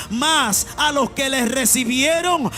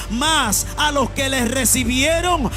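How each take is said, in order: No difference in how they are said.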